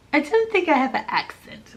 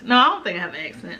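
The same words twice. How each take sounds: First: Musing. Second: Quick, lower insistence; fast, firm denial. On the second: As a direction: brush it off quickly. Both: Shown as a demonstration.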